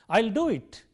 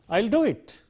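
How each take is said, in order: The two takes are said the same way.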